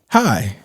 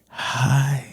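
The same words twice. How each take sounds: First: The word is said in a plain voice. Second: The word is said with a breathy, airy voice. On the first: "you can't just say hi" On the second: "when you put air with it"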